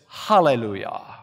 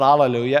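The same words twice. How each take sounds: First: The word begins with a breathy h sound. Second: The word begins directly with a vowel. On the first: The speaker calls it right. "it's a rough breathing mark that produces the aspiration, ha" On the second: The speaker calls it wrong. "it's not hallelujah"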